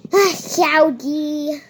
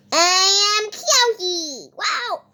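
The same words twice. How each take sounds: First: Said in the usual way. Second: Slow, odd made-up puppet voice; weird put-on voice. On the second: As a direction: say it like a strange new creature introducing itself. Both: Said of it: "Why did I talk like that?".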